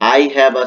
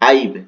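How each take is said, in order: First: It is said as two full words. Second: It is said as one contracted syllable. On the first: "আই হ্যাভ আছে এখানে" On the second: "short format করেছে আইভ হবে উচ্চারণটা"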